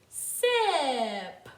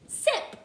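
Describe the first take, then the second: First: The word is said slowly, sounds stretched apart. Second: The word is said quickly, sounds run together. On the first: The separate sounds can be heard. "let's say them slowly" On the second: The whole word can be heard. "let's say them quicker to hear the word"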